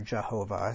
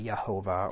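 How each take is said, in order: First: The name begins with a J sound. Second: The name begins with a Y sound. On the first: "So it's in English, it's pronounced as a J" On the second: "You could also pronounce it as a Y"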